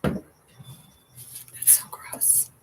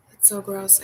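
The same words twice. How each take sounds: First: Unvoiced "so gross"; disgusted whisper. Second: Said in the usual way. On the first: Real, not acted.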